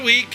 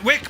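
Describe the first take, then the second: First: The vowel is long, as in 'week'. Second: The vowel is short, as in 'wick'. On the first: This is how the locals say it. "pronounced as Week by the locals" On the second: This is the usual outside pronunciation. "Wick, my hometown"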